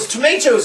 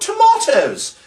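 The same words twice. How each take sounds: First: The word is said in an American accent. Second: The word is said in a British accent. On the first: The speaker calls it wrong. "as you say incorrectly in America" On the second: The speaker calls it right. "We are correct, the British"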